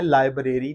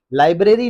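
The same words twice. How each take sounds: First: लाइब्रेरी as lai-BRAY-ree; long BRAY in लाइब्रेरी; wrong pronunciation. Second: लाइब्रेरी as LAI-bruh-ree; reduced middle vowel in लाइब्रेरी; correct pronunciation. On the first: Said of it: "नहीं कहना करना". (लाइब्रेरी ग़लत, लाइ-ब्रे-री) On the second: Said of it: "आपने कहना करना है". (लाइब्रेरी सही, लाइ-ब्र-री) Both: Shown as a demonstration.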